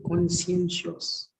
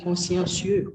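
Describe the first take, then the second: First: "conscientious" slowly as "kon-si-en-shus"; careful English pronunciation. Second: "conscientious" as French "kon-syahn-syuh"; French-like pronunciation. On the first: Student repeats teacher's word, careful English pronunciation. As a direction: sound out "conscientious" in soft, slow syllables. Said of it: "Yeah, conscientious". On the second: Student links word to own language, French-like pronunciation. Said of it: "That's close to your, your language". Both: Shown as a demonstration.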